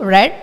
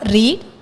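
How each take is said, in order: First: The vowel is short, rhyming with 'bed'. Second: The vowel is long, rhyming with 'need'. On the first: It is the past form of the verb. "V two red" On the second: It is the present form of the verb. "V one read"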